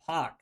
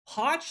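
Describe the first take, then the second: First: The word ends in a k sound. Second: The word ends in a ch sound. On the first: "like P O K" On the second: "like P O C H"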